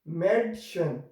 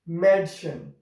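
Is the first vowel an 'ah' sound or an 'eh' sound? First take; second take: eh sound; eh sound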